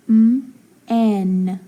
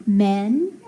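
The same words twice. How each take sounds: First: M, pause, then n said as "en"; m and n held as separate sounds; sounded out. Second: Said in the usual way. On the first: Shown as a demonstration. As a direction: split men into m ... en. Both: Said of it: "so that E is short".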